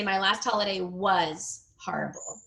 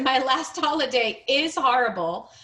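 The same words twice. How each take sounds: First: "was" set apart, sentence falling at the end; stress on WAS. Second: "is" picked out, sentence rising at the end; stress on IS. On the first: Teacher corrects to past tense, stressed "was". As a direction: give weight to "was" as the correction. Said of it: "you wanna say". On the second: Teacher quotes the sentence before correcting it, stressed "is". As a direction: quote it back with weight on "is". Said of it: "I'm just gonna correct one thing". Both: Shown as a demonstration.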